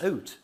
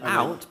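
First: The vowel sounds like Canadian English. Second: The vowel sounds like standard modern English.

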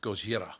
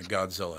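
First: The name has a 'j' sound and an 'r'. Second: The name has a 'dz' sound and an 'l'. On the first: This is the Japanese way of saying the name. The speaker calls it right. "It's Gojira. Get it right" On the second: This is the American way of saying the name. The speaker calls it wrong. "we're Americans and just ruined the pronunciation"

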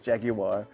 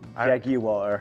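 First: It is said in a British accent. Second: It is said in a plain, non-British accent.

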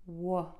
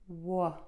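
First: The vowel after W is short and relaxed. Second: The same.

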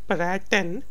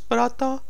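First: The word ends with a clear n sound. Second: The word ends on a vowel, without n. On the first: The speaker calls it wrong. "It's not Praten" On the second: The speaker calls it right. "it's Prata met de winkelier"

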